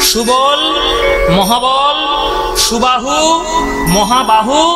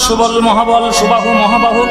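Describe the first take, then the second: First: The names are said slowly, one at a time. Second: The names are rattled off quickly without breaks. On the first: The speaker calls it right. "ভাগ ভাগ করে বললাম" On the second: The speaker calls it wrong. "তুমি তো ঝড়ের গতিতে বলে গেলে"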